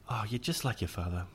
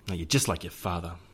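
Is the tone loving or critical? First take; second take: loving; critical. First: It is said in a warm, loving tone. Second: It is said in a harsh, critical tone.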